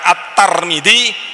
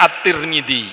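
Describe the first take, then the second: First: The vowel after the T is a. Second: The vowel after the T is i. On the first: "bisa dibaca At-Tarmidzi" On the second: "bisa dibaca At-Tirmidzi"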